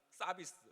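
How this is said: The word has a Korean accent. "우리나라 말로는"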